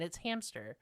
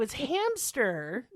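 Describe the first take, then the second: First: Said in the usual way. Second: "hamster" slow and deliberate, each part stressed; slow pointed "hamster", no P; emphatic correction. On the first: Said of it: "but, like, there isn't". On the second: Shown as a demonstration. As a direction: spell out "hamster" slowly like a correction. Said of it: "And I said it like that on purpose".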